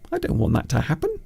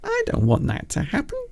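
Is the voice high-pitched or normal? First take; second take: normal; high-pitched. First: It is said in a normal speaking voice. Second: It is said in a very high-pitched voice.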